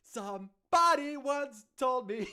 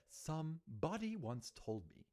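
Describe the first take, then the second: First: Loud, high, slow American belt; American accent. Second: Softly recited posh British lyric; posh British accent. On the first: Streamer redoing All Star lyric, loud exaggerated American accent. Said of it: "I could also do it American". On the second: Streamer doing All Star for laughs, posh British accent. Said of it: "a posh British accent". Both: Shown as a demonstration.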